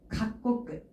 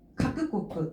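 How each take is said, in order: First: The middle 'ku' becomes a doubled 'k' sound. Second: Both parts are said fully, with 'ku' in the middle. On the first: "이렇게 바뀐 거예요" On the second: "원래대로 읽어주게 되면은 카크 꼬끄예요"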